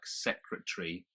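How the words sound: The word is said with three syllables. "we would pronounce as three syllables"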